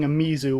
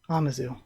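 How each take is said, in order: First: The vowel after the M sounds like 'ee'. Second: The vowel after the M is not 'ee'. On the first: The speaker calls it wrong. "I have a bad habit of saying Amizu when the I there really shouldn't make an E sound" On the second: The speaker calls it right. "the I isn't really an E sound in this case"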